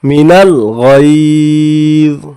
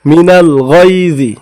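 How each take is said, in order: First: The phrase ends on z, vowel dropped. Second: The phrase ends with a short i vowel. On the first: The reader stops at this word. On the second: The reading continues without stopping.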